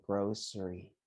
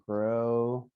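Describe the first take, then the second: First: Grocery said as "grow-sree", softer; grocery with s, not sh; s-sound grocery. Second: Grocery said as "grow-shree"; sh-sound grocery. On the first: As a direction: keep a plain s in grocery. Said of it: "or you can say grocery". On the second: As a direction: put an sh in the middle of grocery. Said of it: "like this". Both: Shown as a demonstration.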